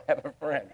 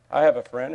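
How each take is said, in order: First: Laughing. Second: "have" pushed up, louder, rising end; stress on have. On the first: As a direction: laugh it out lightly. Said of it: "Praise the Lord". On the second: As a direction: lean on "have". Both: Real, not acted.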